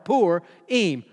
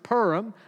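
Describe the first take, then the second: First: The first syllable sounds like 'poor'. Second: The first syllable sounds like 'purr'. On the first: This is the most common way to say it. "like P-O-O-R" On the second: This is probably the technically correct way to say it. "like a cat purrs"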